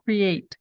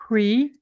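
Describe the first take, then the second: First: "Create" as cre-ate, two syllables, falling. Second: "Create" as one syllable, rising; mispronounced create; create said wrong. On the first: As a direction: split create into two beats. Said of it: "Duas sílabas". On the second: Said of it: "Com uma barrinha aqui até". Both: Shown as a demonstration.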